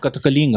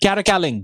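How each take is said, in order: First: It is said in a plain Indian accent. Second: It is said in an imitated American accent.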